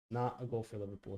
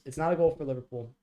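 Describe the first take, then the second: First: Soft, resigned repeat; muttered repeat. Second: Fast, loud protest; outraged disbelief. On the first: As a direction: let it drop under your breath. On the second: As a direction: insist it can't count, fast and loud. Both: Real, not acted.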